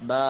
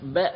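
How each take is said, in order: First: The vowel after b is drawn out long. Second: The vowel after b is short. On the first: The speaker calls it right. "நீட்டிய வண்ணமாக" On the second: The speaker calls it wrong. "ப என்பதாக சொல்வதற்கு பதிலாக"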